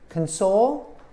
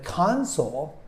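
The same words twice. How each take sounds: First: The stress is on the second syllable. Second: The stress is on the first syllable. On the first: To comfort someone who is sad. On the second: A device such as a game system.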